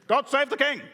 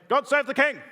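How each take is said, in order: Both takes have the same delivery.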